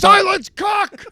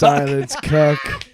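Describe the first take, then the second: First: It is screamed loudly. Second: It is said in a calm, normal voice.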